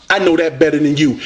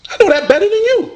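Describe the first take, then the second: First: Said in the usual way. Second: Fast, high, cocky brag; high quick taunt thrown at the rival; taunting boast. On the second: Acted. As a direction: fire it off like a gloating champ.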